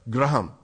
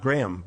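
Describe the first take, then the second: First: It is said in an Indian accent. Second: It is said in a plain, non-Indian accent. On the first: "Indians with with an Indian accent will say" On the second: "not Graham"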